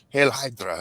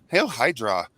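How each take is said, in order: First: It is said in a stern German-accented villain voice. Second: It is said in a silly, mismatched comic voice. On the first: The voice fits the villain's character. "the Red Skull is from Germany and is very uh" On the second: The voice does not match the villain's character. "But what if it was like"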